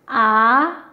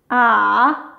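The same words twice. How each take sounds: First: The pitch rises from middle to high. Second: The pitch dips low, then rises again. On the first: "qui part du milieu et qui monte vers le haut" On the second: "qui part du niveau deux, qui descend jusqu'au un, et ensuite, il remonte jusqu'au niveau quatre"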